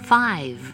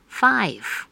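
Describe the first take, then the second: First: The final v is clearly pronounced. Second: The final v is dropped or breathy. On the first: The speaker calls it right. "需要留意的是字尾的v，记得发出来" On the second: The speaker calls it wrong. "不自觉自动省略字尾的v，或者一不留意就出了气音，念成"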